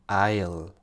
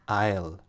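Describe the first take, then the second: First: The words are joined into one short syllable. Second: The same.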